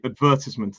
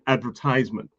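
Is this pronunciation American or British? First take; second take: British; American. First: It is said with a British pronunciation. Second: It is said with an American pronunciation. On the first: "We should say advertisement" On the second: "the Americans are more like advertisement"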